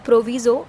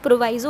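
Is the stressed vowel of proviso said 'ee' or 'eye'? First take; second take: ee; eye. First: The stressed vowel sounds like 'ee'. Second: The stressed vowel sounds like 'eye'. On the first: "आप जो भी इसे pronounce करें" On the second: "मैं इसे प्रोवाइज़ो pronounce करती हूँ"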